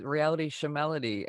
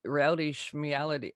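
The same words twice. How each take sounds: First: "Shemality" with a short vowel after SH; SHEMALITY as shuh-MAL-ity. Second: "Schmeality" as shmee-AL-ity, SHM run together; SCHMEALITY with schm-ee. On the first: Bandmate showing his habitual reading, "Shemality" said shuh-MAL-ity. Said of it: "'Cause that's what I always". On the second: Bandmate testing the band's title, "Schmeality" said shmee-AL-ity. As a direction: mirror "Reality" in "Schmeality", ee before AL. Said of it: "It just doesn't s-, roll off the tongue". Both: Shown as a demonstration.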